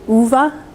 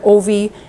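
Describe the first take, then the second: First: The name is said with a Swedish pronunciation. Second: The name is said with an English-style pronunciation. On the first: The speaker calls it right. "because it's Swedish it's actually Uva" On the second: The speaker calls it wrong. "I've heard Ovi"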